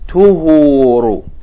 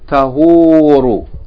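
First: The first vowel is a 'u' sound. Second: The first vowel is an 'a' sound. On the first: "we're going to read it with Dhamma" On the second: "in the book it has with Fatha"

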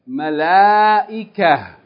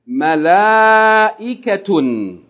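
First: The word ends with a soft 'h' sound. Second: The word ends with a full 'tun' syllable. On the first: The reader stops on this word. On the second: The word is joined to what follows.

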